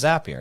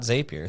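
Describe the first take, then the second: First: The first syllable sounds like the word zap. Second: The first syllable has a long ay vowel. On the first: The speaker calls it right. "it's a zap ... We're creating a zap, so it's it's Zapier" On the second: The speaker calls it wrong. "It's not Zapier"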